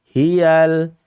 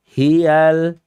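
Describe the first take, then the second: The two takes are said the same way.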